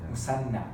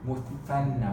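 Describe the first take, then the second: First: The middle consonant is an s sound. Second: The middle consonant is a th sound. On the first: The speaker calls it wrong. "otherwise you pronounce it like a sin" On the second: The speaker calls it right.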